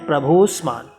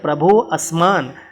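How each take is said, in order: First: The two words are merged into one word. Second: The two words are said separately with a break. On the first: The speaker calls it right. "तो हमें करना है प्रभोस्मान" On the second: The speaker calls it wrong. "तभी ये गलत होगा"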